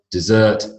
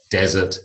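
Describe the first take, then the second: First: Dessert stressed at the end, di-ZERT; verb desert. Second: Desert stressed at the front, DEZ-ert; noun desert. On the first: Teacher listing four pairs, end-stressed dessert. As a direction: say dessert with stress on the second syllable. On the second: Teacher listing four pairs, front-stressed desert. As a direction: say desert with stress on the first syllable. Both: Shown as a demonstration. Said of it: "four pairs of these heteronyms".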